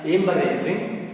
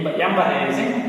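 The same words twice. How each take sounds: First: The word is said in its standard form. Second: The word is said in a simplified form. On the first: "actual pronunciation embarrassing" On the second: "for your convenience, I am pronouncing it embarrassing"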